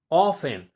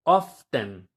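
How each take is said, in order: First: "often" said loudly as OFF-en, T left out; silent T. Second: "often" slow and loud as OFF-ten, T sounded; the wrong example: "often" with a clear T; pronounced T. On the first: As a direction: punch out "often" without any T. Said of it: "como si eliminaras la T". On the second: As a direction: hit the T in "often", drawn out. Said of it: "a veces lo pronuncian como often". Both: Shown as a demonstration.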